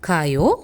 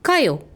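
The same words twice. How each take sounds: First: It is said softly and politely. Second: It is said loudly and forcefully. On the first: Let's go. "கொஞ்சம் பணிவாக" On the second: Go. "சத்தமாக அழுத்தி"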